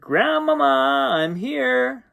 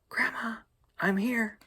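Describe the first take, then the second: First: It is said aloud, not whispered. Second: It is said in a whisper.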